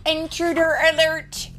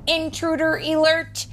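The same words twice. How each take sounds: First: High, loud robotic warning repeated; alarm computer voice. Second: High, loud robotic warning, stress on alert; alarm computer voice. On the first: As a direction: blare it again like an alarm. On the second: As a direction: blare it like a security alarm. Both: A narrator's reading. Alarm voice in story.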